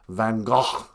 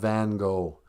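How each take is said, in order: First: 'Gogh' ends with a sound other than 'go'. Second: 'Gogh' ends with a plain 'go' sound. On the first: This is the way others insist on. The speaker calls it wrong. "I'm not going to pronounce it Van Gogh, or however stupid way people want to say" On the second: This is the American way. The speaker calls it right. "In American, he's called Van Gogh"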